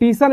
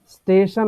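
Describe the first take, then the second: First: The word begins with a t sound. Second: The word begins with an s sound. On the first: "इसको टीशन भी बोला जाता है" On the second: "स्टेशन होता है"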